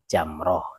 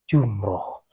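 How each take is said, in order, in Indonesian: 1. Vokal pertama adalah bunyi 'a'. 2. Vokal pertama adalah bunyi 'u'. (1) "yang benar itu adalah lontar jamroh" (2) "salah kaprah. Bilangnya lontar jumroh"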